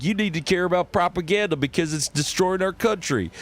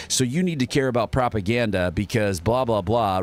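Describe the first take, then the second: First: High, fervent preacher rant; put-on, pitched-up zealot voice; character voice. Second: Said in the usual way. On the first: Shown as a demonstration. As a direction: warn them like an alarmed pulpit preacher. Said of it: "some guys like". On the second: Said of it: "just talking in his normal voice".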